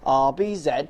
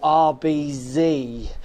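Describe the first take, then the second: First: The Z is said the British way, zed. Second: The Z is said the American way, zee.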